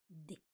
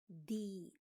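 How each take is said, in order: First: The consonant is said alone without a vowel. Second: The consonant is followed by a vowel sound. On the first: The speaker calls it right. "El mero sonido de la consonante tan separado como sea posible de la siguiente vocal" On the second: The speaker calls it wrong. "no D"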